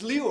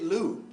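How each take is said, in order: First: The name does not sound like 'loo'. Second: The name sounds like the word 'loo'. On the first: The speaker calls it right. "It's Liu, right?" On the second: The speaker calls it wrong. "they always call it Liu"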